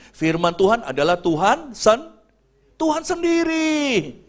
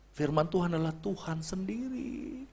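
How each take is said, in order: First: "Tuhan sendiri" slowed right down and lifted high; emphatic. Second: "Firman Tuhan adalah Tuhan sendiri" said much softer, almost under breath; soft repeat. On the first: Preacher stressing the Word is God himself, emphatic. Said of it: "preacher builds to key line". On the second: Preacher quietly repeating the verse to congregation, soft. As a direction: let the repeat sink in quietly. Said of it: "repeats line softly". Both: Shown as a demonstration.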